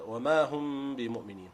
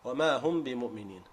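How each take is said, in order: First: The phrase is said with a lengthened nasal sound. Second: The phrase is said quickly with a short nasal sound. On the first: "Now make the gunna longer" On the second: "Say it as normal"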